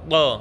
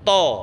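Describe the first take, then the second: First: The t sound is light, tongue pressed weakly. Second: The t sound is heavy, tongue pressed firmly. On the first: The speaker calls it wrong. "kurangi menekan lidah ke atas, kurang dipadal lidahnya, akhirnya ngeten" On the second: The speaker calls it right. "nempel semua ditekan ke atas"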